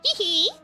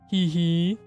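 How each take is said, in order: First: The laugh is in a higher, normal voice. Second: The laugh is in a deeper voice. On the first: The speaker calls it wrong. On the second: The speaker calls it right.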